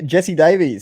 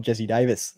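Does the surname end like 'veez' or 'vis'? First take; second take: veez; vis. First: The surname ends with a long 'veez' sound. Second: The surname ends with a short 'vis' sound. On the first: The speaker calls it wrong. "I'm gonna mispronounce that one a few times" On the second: The speaker calls it right. "it's Davis, not Davies"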